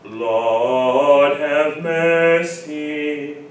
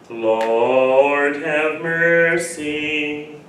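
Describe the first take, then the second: First: The R sounds are dropped, giving an open tone. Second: Strong R sounds make the tone sharper and throaty. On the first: The speaker calls it right. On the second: The speaker calls it wrong.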